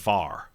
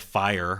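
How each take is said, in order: First: It is said as 'far', southern Indiana style. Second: It is said with a full two-syllable 'fire'.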